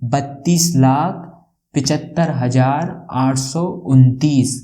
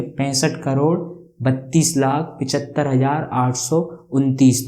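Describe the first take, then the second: First: Each number said slowly and deliberately; slow read-out. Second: Said in the usual way. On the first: Shown as a demonstration. Teacher reading the number to students, slow and deliberate. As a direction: spell out the big number slowly for the class. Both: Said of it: "कैसे पढ़ेंगे?".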